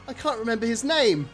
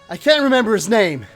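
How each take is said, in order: First: It is said without an American accent. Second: It is said in an American accent. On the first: The speaker calls it wrong. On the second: The speaker calls it right.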